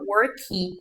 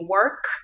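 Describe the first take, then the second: First: An extra vowel sound is added after the final k. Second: The word ends cleanly on the final k sound. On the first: The speaker calls it wrong. "a gente tem a tendência de falar worky" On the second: The speaker calls it right. "ao invés de work"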